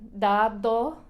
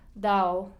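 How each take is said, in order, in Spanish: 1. La segunda d es fuerte y dura. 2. La segunda d se omite por completo. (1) "que suena muy raro y muy um, fuerte" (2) "hasta no pronuncian la D ni siquiera"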